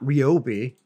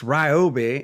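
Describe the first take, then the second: First: The first syllable sounds like 'ree'. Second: The first syllable does not sound like 'ree'. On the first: The speaker calls it wrong. "the way a lot of people pronounce it is R E E O B I E" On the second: The speaker calls it right. "It's Ryobi"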